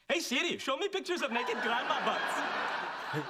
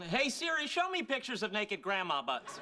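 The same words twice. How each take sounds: First: It is said in a put-on imitation voice. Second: It is said in the speaker's own normal voice.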